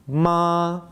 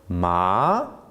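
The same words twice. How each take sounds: First: The pitch stays level throughout. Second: The pitch rises throughout. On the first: It means mother. "with a flat tone" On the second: It means hemp. "but with a rising tone"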